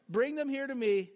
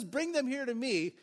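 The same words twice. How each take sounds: First: Playful and knowing, as if with a wink. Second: Said in the usual way. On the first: Shown as a demonstration. Jesus to his disciples, a playful knowing wink. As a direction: tease them gently, you know what's coming. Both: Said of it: "like that".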